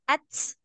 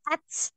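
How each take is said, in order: First: It ends in a t followed by a hissing s. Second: The same.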